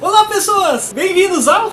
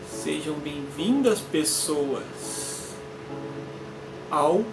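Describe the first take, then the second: First: The greeting is said with lively, high energy. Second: The greeting is said calmly, without much energy.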